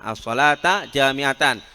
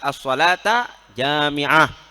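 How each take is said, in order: First: The last word ends fully in -atan. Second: The last word is cut short to -ah. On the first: "dengan menasobkannya as-salata jami'atan" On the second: "Tidak dibaca jami'atan karena diwakafkan"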